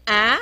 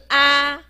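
First: 啊 with a rising end; 升调示范. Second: 啊 long and level; 平音示范. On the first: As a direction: lift the "ah" of 啊 upward like a question. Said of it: "第二个是啊". (念“啊”，尾音上扬) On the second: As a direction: hold the open "ah" of 啊 on one steady pitch. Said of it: "第一个是啊". (平稳拉长地念“啊”) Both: Shown as a demonstration.

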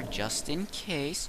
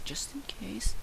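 First: Said in the usual way. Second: Soft unvoiced whisper of just in case. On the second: Shown as a demonstration. Gamer echoes his own reminder in a whisper. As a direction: breathe the words just in case.

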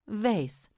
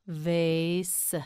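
First: Said in the usual way. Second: "Vase" with a long held vowel; drawn out. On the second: Shown as a demonstration. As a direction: stretch "Vase" for a learner. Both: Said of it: "You say it".

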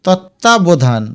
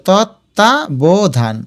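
First: Said in the usual way. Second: তত্ত্বাবধান slowly as tot, ta, bo, dhan; syllable by syllable. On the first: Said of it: "এটার উচ্চারণ". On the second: Shown as a demonstration. Teacher helps students place hasanta, তত্ত্বাবধান slowly split. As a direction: separate each beat of তত্ত্বাবধান. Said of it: "এই যে".

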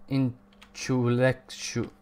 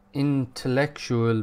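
First: "intellectu-" slowly fumbled and broken off; stumbled pronunciation. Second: "intellectual" slowly said in full; careful pronunciation. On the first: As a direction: trip slowly over "intellectu-" and stop. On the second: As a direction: get through every syllable of "intellectual" slowly. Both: Real, not acted. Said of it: "could say the word first time".

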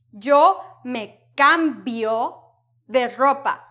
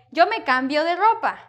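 First: Slow, word by word, with a hard b in cambio; over-articulated. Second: Cambio said in one natural flow with a light b; softer b. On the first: Teacher showing how not to sound, over-articulated cambio. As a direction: stretch out cambio with a strong, exaggerated b. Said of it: "don't want to sound like that". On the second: Teacher showing how you'll say it, soft b in cambio. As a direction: link it smoothly, easing the b in cambio. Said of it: "A little bit softer". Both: Shown as a demonstration.

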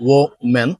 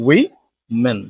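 First: Woman split as WO-men; singular pronunciation. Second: Women split as WI-men; plural pronunciation. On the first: Teacher shows the singular form, careful pronunciation. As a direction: say woman with a rounded first vowel. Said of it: "The singular form of this word is". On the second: Teacher shows the plural form, careful pronunciation. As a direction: say women slowly with "wi" first. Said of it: "but the plural form is". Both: Shown as a demonstration.

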